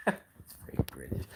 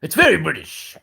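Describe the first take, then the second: First: Whispered, much softer aside; soft mock-conspiratorial whisper. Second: Said in the usual way. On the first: Shown as a demonstration. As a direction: breathe it as a secret joke. Joke then whispered repeat.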